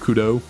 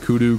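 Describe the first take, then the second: First: The word ends with an 'oh' vowel. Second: The word ends with an 'oo' vowel. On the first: The speaker calls it right. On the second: The speaker calls it wrong. "not kudu"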